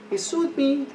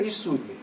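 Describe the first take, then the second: First: "He sued me" pitched high in disbelief. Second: Said in the usual way. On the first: Real, not acted. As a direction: repeat it higher, incredulous.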